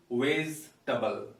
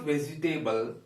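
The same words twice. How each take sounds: First: 'vegetable' shortened to 'vez-tuh-bul'; correct pronunciation. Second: 'vegetable' ending in the word 'table'; mispronunciation. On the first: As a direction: say 'vegetable' in three syllables, no 'table'. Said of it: "It is actually". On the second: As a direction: say 'vegetable' as 've-zi-tay-bul'. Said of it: "It is not". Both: Shown as a demonstration.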